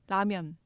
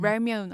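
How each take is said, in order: First: The word is said with a Korean accent. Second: The word is said with an English accent.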